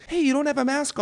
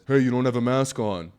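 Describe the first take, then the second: First: Very high, whiny mock of the masked man. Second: Said in the usual way. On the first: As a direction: squeak it like a prissy scold. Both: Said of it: "he sounded more like this".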